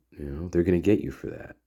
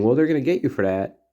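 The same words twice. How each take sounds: First: Quieter, darker and a bit faster; ominous warning. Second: Light, breezy and a bit faster; innocent joking warning. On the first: Jack warns the girls in earnest, quietly ominous. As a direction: let it hang like a real threat. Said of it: "What if it was nefarious?". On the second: Jack teases the girls about a prank, light and breezy. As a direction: toss it off like a harmless tease. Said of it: "it could be totally innocent". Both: Retold or imitated.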